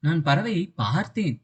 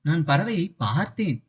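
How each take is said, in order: First: The stress falls on the word பார்த்தேன். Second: The same.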